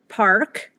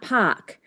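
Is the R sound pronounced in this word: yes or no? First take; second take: yes; no. First: The word is said with an audible R sound. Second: The word is said without any R sound. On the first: This is how earlier Southern British speakers said it. "where it would have been an R" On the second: This is the later form with the R dropped. "and not Pock"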